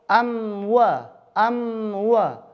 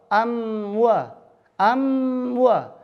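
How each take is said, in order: Both takes have the same delivery.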